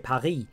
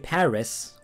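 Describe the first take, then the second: First: The final S sound is left silent. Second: The final S sound is pronounced. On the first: "as in the S is just lost" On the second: "because the S is in the word"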